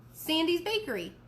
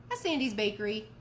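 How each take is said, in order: First: High stunned question on Bakery; disbelieving, voice jumps up; surprised. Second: Said in the usual way. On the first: Acted. Mom stunned by the answer.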